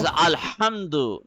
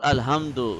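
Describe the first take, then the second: First: The h sound is sharp and breathy. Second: The h sound is plain and soft. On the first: The speaker calls it right. "it is Alhamdu" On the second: The speaker calls it wrong. "not Alhamdu"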